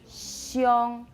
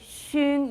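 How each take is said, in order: First: The vowel has a yo glide. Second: The vowel is a plain u sound. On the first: The speaker calls it right. "you say xiong" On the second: The speaker calls it wrong. "but you don't say shung"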